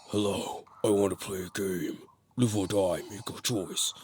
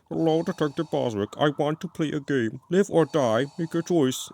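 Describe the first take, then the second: First: It imitates the original Jigsaw's normal voice. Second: It imitates the copycat killer's lame Jigsaw voice.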